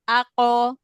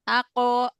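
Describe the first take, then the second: Both takes have the same delivery.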